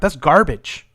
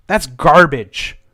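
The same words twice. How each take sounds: First: Said in the usual way. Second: "That's garbage." slowed right down, each word leaned on; slow, deliberate dismissal; slow emphatic. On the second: Real, not acted. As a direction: drag "That's garbage." out for weight. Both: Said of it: "repeated for emphasis".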